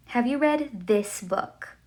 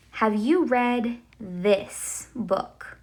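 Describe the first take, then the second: First: Said in the usual way. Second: Slow, careful example sentence; slow demo question. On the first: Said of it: "este libro". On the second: Shown as a demonstration. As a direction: spell it out slowly for the class. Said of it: "I would say".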